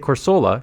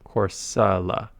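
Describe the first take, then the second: First: The middle syllable has an oh vowel. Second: The middle syllable has a weak uh vowel. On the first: "I used to say Corsola because that's how it's written" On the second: "S U H L U H"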